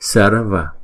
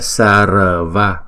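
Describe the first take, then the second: First: The r is only a light flick of the tongue. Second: The r is pronounced as a full r sound. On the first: The speaker calls it right. "Chữ R này là không có đọc lên thành chữ R mà đọc là đánh lưỡi lên thôi" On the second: The speaker calls it wrong. "Không phải là sarva"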